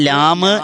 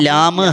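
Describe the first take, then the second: No difference in how they are said.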